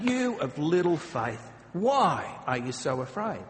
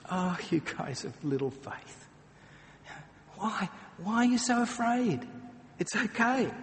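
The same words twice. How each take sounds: First: Imitating an upset, exasperated Jesus; a touch of impatient rebuke; mild exasperation. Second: Higher, tender and patient; loving teacher calming his students; gentle reassurance. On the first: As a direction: scold them lightly, disappointed. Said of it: "I imagine Jesus was upset with them". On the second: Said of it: "He was a loving teacher. He was a patient guide". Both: Shown as a demonstration.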